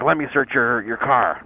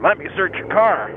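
First: Said in the usual way. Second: "Let me search your car" pitched up and insistent; "Let me search your car" as a firm, higher-pitched repeat; emphatic repeated demand. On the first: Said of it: "He's like". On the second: Retold or imitated. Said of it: "He said".

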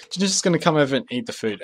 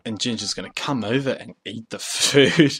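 First: Said in the usual way. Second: Odd drawn-out way. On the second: Real, not acted. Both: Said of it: "I don't know why I'm talking like that".

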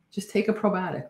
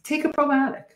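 First: Said in the usual way. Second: Excited urging. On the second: Real, not acted. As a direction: pitch jumps way up on take a probiotic. Urging viewers to take probiotics.

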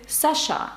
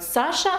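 First: "Саша" stressed on the last syllable, sa-SHA; French final stress. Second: Said in the usual way. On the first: Shown as a demonstration. Teacher showing the name in France, sa-SHA. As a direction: move the weight to the end of "Саша". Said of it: "у Франції ви будете". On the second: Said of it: "наголос на останній склад".

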